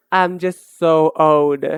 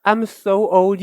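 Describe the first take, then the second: First: Sighing over her age, slow and low; slow, lower lament. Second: Said in the usual way. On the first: Shown as a demonstration. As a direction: draw out each word slowly, pitched low.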